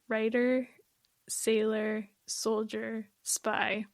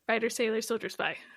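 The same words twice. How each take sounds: First: The title is said slowly. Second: The title is said fast.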